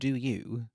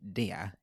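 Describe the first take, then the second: First: It is said as two full, separate words. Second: It is blended into one short syllable. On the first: The speaker calls it wrong. "No, not do you" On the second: The speaker calls it right. "We pronounce it dia"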